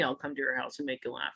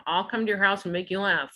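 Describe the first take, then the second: First: Quick, hushed suggestive innuendo. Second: Said in the usual way. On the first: Shown as a demonstration. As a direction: say it like a sly double meaning. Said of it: "not as seedy as it sounds".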